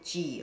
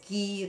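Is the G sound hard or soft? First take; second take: soft; hard. First: The G is a soft sound. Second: The G is a hard stop sound. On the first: "the soft G" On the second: "the hard G"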